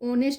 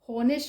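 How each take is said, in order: First: The word begins with a vowel sound. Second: The word begins with an h sound. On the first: The speaker calls it right. "ઓનેસ્ટ ઓ ઓનેસ્ટ વંચાય" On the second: The speaker calls it wrong. "હોનેસ્ટ નહીં વંચાય"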